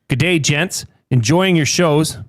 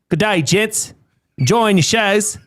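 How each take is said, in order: First: It is read in the speaker's ordinary accent. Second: It is read in a put-on Australian accent.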